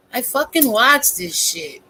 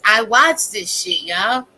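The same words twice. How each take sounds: First: Lightly voiced stand-up comedian delivery; a hint of a comic's voice; Dave Chappelle. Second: Said in the usual way. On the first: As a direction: say it like a comedian landing a line. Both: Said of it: "in my Dave Chappelle voice".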